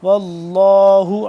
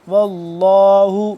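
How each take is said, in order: The two takes are said the same way.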